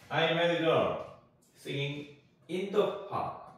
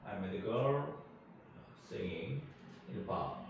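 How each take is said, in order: First: The preposition 'in' is said strongly. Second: The preposition 'in' is said weakly.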